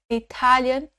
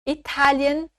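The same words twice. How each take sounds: No difference in how they are said.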